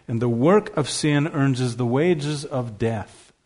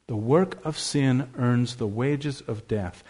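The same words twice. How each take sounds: First: "earns" given slow, deliberate weight; slow it down and press "earns"; measured stress on the word "earns". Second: "earns" pressed softly at a slow pace; hushed, slow weight on "earns"; quieter, slow stress on earns. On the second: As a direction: repeat it more softly, slow, leaning on "earns". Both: Shown as a demonstration. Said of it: "I want to put the stress on the word earns".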